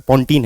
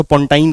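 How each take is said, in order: First: पोंटीन with a long "ee" in the last syllable; corrected pronunciation. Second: पोंटाइन with a long "ai" in the last syllable; common mispronunciation. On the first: Teacher correcting students on a mountain name, corrected पोंटीन ending in "-een". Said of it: "but पोंटीन है". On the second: Teacher quoting how many people say it, common mispronunciation पोंटाइन ending in "-ain". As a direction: say पोंटाइन, ending like English "tine". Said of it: "बहुत सारे लोग इसको पोंटाइन कहते हैं". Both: Shown as a demonstration.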